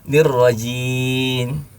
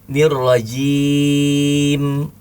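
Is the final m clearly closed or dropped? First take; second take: dropped; closed. First: The word ends with the m dropped. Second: The word ends with a clear closed m. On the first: The speaker calls it wrong. "Dia lepas. Entah kemana mimnya hilang" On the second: The speaker calls it right. "ada huruf mim yang harus menutup bibir"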